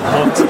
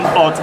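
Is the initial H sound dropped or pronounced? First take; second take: pronounced; dropped. First: The word starts with an H sound. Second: The word starts without an H sound. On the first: The speaker calls it right. "instead of hot" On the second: The speaker calls it wrong. "why do you keep saying hot"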